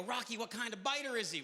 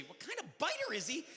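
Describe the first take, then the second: First: Said in the usual way. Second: Incredulous echo. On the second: Retold or imitated. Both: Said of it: "come up to me and go".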